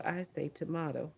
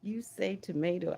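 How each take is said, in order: First: "tomato" as to-MAH-to; "tomato" pronounced tuh-MAH-toh. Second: "tomato" as to-MAY-to; "tomato" pronounced tuh-MAY-toh. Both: Shown as a demonstration. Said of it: "You say tomato, I say tomato".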